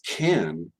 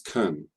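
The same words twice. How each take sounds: First: The word is stressed with a full vowel. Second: The word is unstressed with a reduced vowel. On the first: "when it's emphasized as can" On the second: "so it's can in an actual flow of, of speech"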